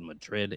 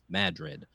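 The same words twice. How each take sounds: First: Madrid is said the Spanish way. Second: Madrid is said the local Iowa way. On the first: This is how outsiders name the town. The speaker calls it wrong. "no, it's not called Madrid" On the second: This is how the locals name the town. The speaker calls it right. "the way they do in Iowa"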